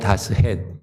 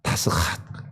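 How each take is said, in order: First: It ends in a plain Korean-style het. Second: It ends in a breathy throaty hat. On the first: "우리말로 지금 알 다스헷" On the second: "히브리어 원어로 하면 이제 정확한 발음이"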